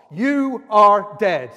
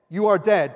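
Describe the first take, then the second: First: Each word slow and loud, DEAD falling; a solemn pronouncement, slowed right down; slow, heavy emphasis. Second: Said in the usual way. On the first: Acted. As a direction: lean hard into You are dead, drawn out. Preacher slows on key phrase.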